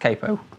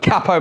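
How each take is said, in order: First: Capo is said the American way. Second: Capo is said the British way.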